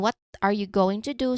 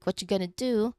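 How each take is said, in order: First: Each word is said clearly and separately. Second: The words are reduced and run together.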